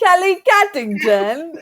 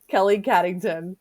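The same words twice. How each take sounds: First: It is said as a Moira impression. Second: It is said in her normal voice.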